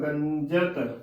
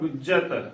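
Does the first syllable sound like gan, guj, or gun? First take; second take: gan; guj. First: The first syllable has a nasal 'a' vowel. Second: The first syllable has a non-nasal 'u' vowel. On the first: "ਇਕੱਲਾ ਇਸ ਨੂੰ ਟਿੱਪੀ ਦੇ ਨਾਲ ਉਚਾਰਨ ਕਰ ਦਈਏ" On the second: "ਕੱਲੇ ਔਂਕੜ ਦਾ ਉਚਾਰਨ ਬਣ ਗਿਆ"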